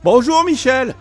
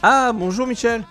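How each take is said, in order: First: The greeting is said with exaggerated energy. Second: The greeting is said flatly, without energy.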